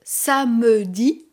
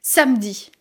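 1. La voyelle du milieu est prononcée, trois syllabes. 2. La voyelle du milieu est supprimée, deux syllabes. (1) "Au lieu de dire « samedi »" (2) "Le « e » de samedi est supprimé"

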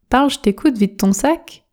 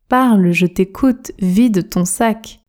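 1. La phrase est prononcée vite, avec des sons réduits. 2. La phrase est prononcée à un rythme normal, posé.

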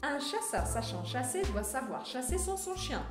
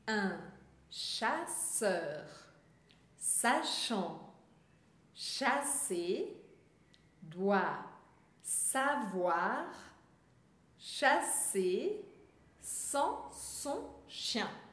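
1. A frase é falada em um ritmo mais rápido. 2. A frase é falada devagar e com cuidado. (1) "um pouquinho mais rápido" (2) "eu vou falar pausadamente"

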